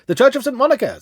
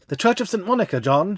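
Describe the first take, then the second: First: Loud, high call to the cabby; urgent call. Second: Cried out. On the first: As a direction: call it out hurriedly, higher. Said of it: "said I". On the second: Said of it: "she cried". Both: A narrator's reading.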